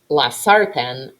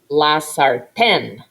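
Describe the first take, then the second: First: The stress is on the first syllable. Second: The stress is on the last syllable. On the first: The speaker calls it wrong. "If you say la sartén, it sounds bad" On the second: The speaker calls it right. "Do you hear that stressed syllable?"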